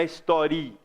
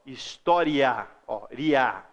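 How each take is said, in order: First: "história" broken as "históri... a"; over-separated ending on "história"; wrongly split vowels. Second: "História" slow and low, the I gliding weakly into A; slow demo of gliding "ria". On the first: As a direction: make the I in "história" a full vowel, then detach the A. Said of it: "Não é história". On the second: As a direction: let "ria" be one syllable with a weak I. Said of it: "Esse I é mais fraco". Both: Shown as a demonstration.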